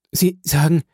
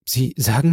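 First: Frightened. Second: Said in the usual way. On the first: A narrator's reading. Valentin repeats his words to the count, afraid. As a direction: ask "Sie sagen" with rising fear. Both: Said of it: "im höchsten Maße erschrocken".

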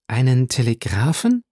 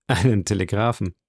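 First: Questioning repeat with rising end; mildly astonished, lifted at the end; surprised echo. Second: Said in the usual way. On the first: A narrator's reading. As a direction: repeat it back as a puzzled question. Listener echoes answer as surprised question.

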